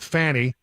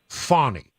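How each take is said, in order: First: The first vowel rhymes with 'canny'. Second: The first vowel does not rhyme with 'canny'. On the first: "I've been going with Fanny, uh, like Take a Load Off Fanny" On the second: "she prefers the pronunciation Fawny"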